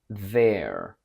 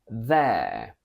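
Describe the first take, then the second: First: An American accent with a lowered vowel. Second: A British accent with a long air vowel. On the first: "From British to American" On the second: "From British to American"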